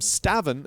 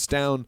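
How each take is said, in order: First: The name is said the widely used way. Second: The name is said the Danish way. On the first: "most people pronounce him Stavin" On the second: "I believe that's the Danish pronunciation of it"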